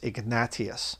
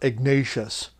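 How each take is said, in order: First: The name is said with Latin vowel sounds. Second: The name is said with English vowel sounds. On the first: The speaker calls it right. "the proper Latin way of saying it" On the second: The speaker calls it wrong. "not Ignatius"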